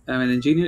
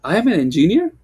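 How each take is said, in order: First: Said as a plain statement, falling away after ENGINEER; level, matter-of-fact "I'm an engineer"; statement intonation. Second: Louder, higher, swooping up on ENGINEER as a question; question intonation. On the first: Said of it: "If I say it like this". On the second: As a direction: turn "I am an engineer" into a surprised-sounding question. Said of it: "now it sounds like, more like a question". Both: Shown as a demonstration.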